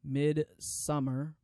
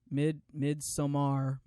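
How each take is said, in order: First: Midsummer said slowly, as "mid-summer" with rising end; slowly testing the word Midsummer; careful pronunciation. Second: Midsommar said slowly as "mid-so-mar", restarting on mid; a second careful try at Midsommar; careful pronunciation. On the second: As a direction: sound out Midsommar syllable by syllable. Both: Shown as a demonstration. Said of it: "I don't wanna say this word wrong again".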